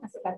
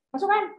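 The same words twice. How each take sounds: First: It is said in a gentle, encouraging tone. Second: It is said in a harsh, scolding tone.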